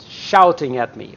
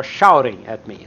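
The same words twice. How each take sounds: First: "shouting" with a crisp T in the middle; careful "shouting", T fully sounded; clear T pronunciation. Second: Casual "shouting", middle T turned to a quick tap; flapped T pronunciation. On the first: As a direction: articulate the T of "shouting". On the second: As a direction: flap the T in "shouting". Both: Shown as a demonstration. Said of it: "you can have both pronunciations".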